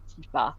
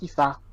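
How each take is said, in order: First: The stress is on the last syllable. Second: The stress is on the first syllable. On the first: The speaker calls it wrong. "technically in a very French way" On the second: The speaker calls it right. "I think really it's just Tifa"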